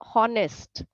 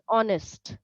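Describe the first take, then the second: First: The word starts with a pronounced H sound. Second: The word starts with a silent H. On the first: The speaker calls it wrong. "you said honest" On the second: The speaker calls it right. "The H is not pronounced"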